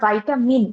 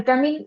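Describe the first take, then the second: First: The first syllable is 'vy', the last 'min'. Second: The first syllable is 'vee', the last 'min'. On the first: "আবার ভাইটামিন এইভাবেও pronounce করি" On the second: "অনেক সময় আমরা ভিটামিন pronunciation করি, এইভাবে pronounce করি"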